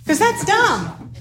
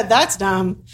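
First: "'Cause that's dumb" stretched slow and high, savoring "dumb"; a slow, high, mock-emphatic "that's dumb"; drawn-out "that's dumb". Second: Said in the usual way. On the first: Shown as a demonstration. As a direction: drag out "that's dumb" slowly, up high, for effect. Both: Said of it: "we don't ever go, "That's dumb".

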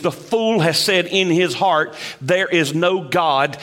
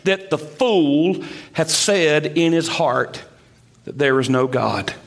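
First: Said in the usual way. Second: The fool hath said in his heart, slowed and stressed on fool; slow weighty quote. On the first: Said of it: "some scholars say that literally that phrase". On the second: Shown as a demonstration. To the congregation, slow stressed reading of the verse. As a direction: lean on fool, then drop low on there is no God. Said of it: "And it's this".

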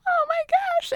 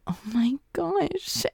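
First: Very high, excited "Oh my gosh"; thrilled squeal. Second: Slow, breathless whispered "Oh my gosh"; stunned whisper. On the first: Elizabeth reacting to Darcy's second proposal, high squeal. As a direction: squeal with delight. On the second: Elizabeth realizing Darcy paid for the wedding, slow whisper. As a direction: hush it out like a secret shock. Elizabeth reacts to aunt's hint. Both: Retold or imitated.

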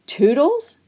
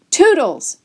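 First: Higher, incredulous rising question; disbelief. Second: High, loud call to a dog; storybook yell of TOODLES; shouted call. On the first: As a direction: question the name as if you can't believe it. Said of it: "face registered disbelief". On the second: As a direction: shout for the dog, falling at the end. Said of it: "I shouted". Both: A narrator's reading.

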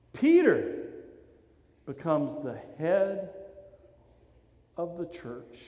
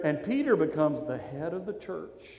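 First: Emphatic preacher's "Peter" with pauses after it; stress on Peter. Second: Said in the usual way. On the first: Shown as a demonstration.

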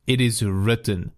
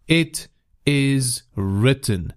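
First: Said in the usual way. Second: It is written said slowly, each word weighted; slowed-down preacher's emphasis on "It is written"; slow emphatic repeat. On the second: Shown as a demonstration. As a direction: lean on "It is written", slow and deliberate.

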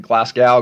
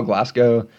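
First: Glasgow ending in "gow", rhymes with cow; alternative pronunciation. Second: Glasgow ending in "go", rhymes with snow; alternative pronunciation. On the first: Podcaster unsure how the city is said, Glasgow ending in "ow". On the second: Podcaster weighing how the city is said, Glasgow ending in "oh". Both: Shown as a demonstration. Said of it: "if I'm pronouncing Glasgow right".

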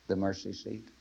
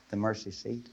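The two takes are said the same way.

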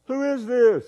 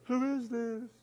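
First: High drawn-out call into a canyon. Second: High, soft far-off echo. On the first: Boy questions the unseen voice, calling out. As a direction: call it high across the distance. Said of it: "he yelled out". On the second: Canyon repeats the boy's question, distant echo. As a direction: echo it back high and faint. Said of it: "he heard". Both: Acted.

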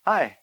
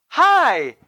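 First: Flat, dry one-word reply; mock cold greeting. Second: Higher, eager friendly hi; cheerful hopeful hi; bright hello. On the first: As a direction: brush him off with a curt hi. Pastor answers him coldly. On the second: Retold or imitated. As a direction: greet him like an old friend. Greets former pastor warmly.

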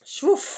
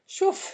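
First: High whoosh. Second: Said in the usual way. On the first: Shown as a demonstration. Repeats the whoosh higher.

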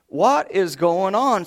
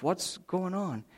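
First: Slow, stunned and a bit louder; drawn out in disbelief; father staring at the wrecked yard, stunned; shocked. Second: Much softer, slow, worried; half to himself, fearing the worst; father climbing the stairs, quietly worried; worried under breath. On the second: Father worried about wife. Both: Retold or imitated.

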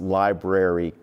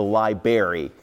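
First: Said in the usual way. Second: Library said as "libary", the first r dropped; library like a first grader, "lie-berry"; childish mispronunciation. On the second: Retold or imitated. Preacher recalling his first-grade word, mispronounced. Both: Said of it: "I couldn't pronounce library correctly".

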